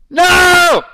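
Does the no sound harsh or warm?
harsh. A loud, forceful no without warmth.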